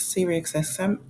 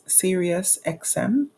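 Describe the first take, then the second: First: Sirius X M slurred into "Siri-ex-S-M"; stumbled pronunciation. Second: Sirius X M said slowly, each part separate; careful retake. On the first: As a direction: trip over the name Sirius X M, blurring Sirius. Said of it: "I always cannot say this". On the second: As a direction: take care over the tongue twister Sirius X M. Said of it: "a tongue twister". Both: Real, not acted.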